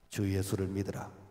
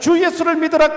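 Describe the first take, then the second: First: It is said quietly and half-heartedly. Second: It is said loudly and boldly.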